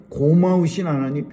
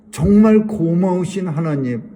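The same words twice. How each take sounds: First: Said in the usual way. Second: 정말 pressed hard and loud, falling; stress on 정말. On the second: Shown as a demonstration. Preacher thanking God before the congregation, stress on 정말. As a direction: lean on 정말 to lift the thanks. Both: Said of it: "repeated thanks to God".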